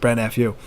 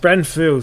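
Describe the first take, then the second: First: The last part is spelled out as letters. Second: The last part is said as one syllable. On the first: The speaker calls it wrong. "I keep saying it like that" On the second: The speaker calls it right. "Bren Fu is the intended"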